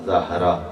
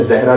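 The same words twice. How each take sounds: First: زہرا said zahra, open a with clear h; Arabic pronunciation. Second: زہرا said zehra, the Urdu way with e; Urdu pronunciation. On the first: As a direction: say زہرا as zah-ra, Arabic style. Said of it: "جو عربی pronunciation ہے". (زہرا کو عربی تلفظ میں زَہرا بولیں) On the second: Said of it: "ہم اردو pronunciation میں". (زہرا کو اردو انداز میں زہرہ بولیں) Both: Shown as a demonstration.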